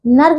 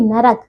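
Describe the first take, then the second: First: नर्क as one syllable: nark; mispronunciation. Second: नरक as two syllables: na-rak; correct pronunciation. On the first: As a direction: join r and k in नर्क. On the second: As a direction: put a vowel between r and k in नरक. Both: Shown as a demonstration. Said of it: "देखिए नर्क नहीं".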